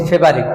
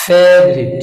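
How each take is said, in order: First: ফেভারিট said quickly with a b-like middle; common mispronunciation. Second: ফেভারিট drawn out with a v, not b; corrected pronunciation. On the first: Teacher quoting the usual ফেভারিট, loose b for v. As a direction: run ফেভারিট off the everyday way. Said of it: "আমরা বলছি ফেভারিট". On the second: Teacher drilling ফেভারিট slowly, v instead of b. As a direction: lengthen the first syllable of ফেভারিট. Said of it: "বি নয়, ভি". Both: Shown as a demonstration.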